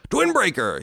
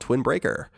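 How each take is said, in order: First: It is said in a dramatic movie-trailer voice. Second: It is said in a normal reading voice.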